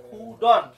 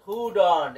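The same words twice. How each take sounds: First: Slow, drawn-out কুডন্ট; correct pronunciation. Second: কুডন্ট as two syllables, kud-ont; pronunciation demo. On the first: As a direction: model কুডন্ট slowly, syllable by syllable. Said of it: "এটার শুদ্ধ উচ্চারণ হবে". (ধীরে শুদ্ধ উচ্চারণে কুডন্ট) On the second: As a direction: model কুডন্ট for repeating. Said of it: "কি হয় বলেন তো?". (কুডন্ট উচ্চারণ করে শোনানো) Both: Shown as a demonstration.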